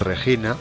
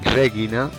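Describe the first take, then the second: First: The g is a harsh throaty rasping sound. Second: The g is a hard sound as in go. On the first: The speaker calls it wrong. "y no" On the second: The speaker calls it right. "la G es siempre suave. Por ejemplo, decimos"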